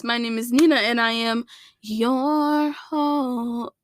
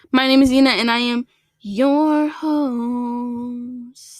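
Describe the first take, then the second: First: Drawn-out host line that breaks off; host intro voice. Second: Host intro voice. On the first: Podcaster's first try at her intro, slow and stretched. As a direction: start the host intro, then falter. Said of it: "my voice is cracking". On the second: Podcaster retaking her intro in a slow host voice. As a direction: announce yourself like a show host, dragging the last words. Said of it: "welcome back to the King Nut Queen podcast". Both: Acted.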